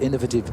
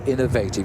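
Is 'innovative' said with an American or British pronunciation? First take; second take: British; American. First: It is said with a British English pronunciation. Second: It is said with an American English pronunciation. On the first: "You have to excuse the English pronunciation sometimes" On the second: "or as perhaps the American might say"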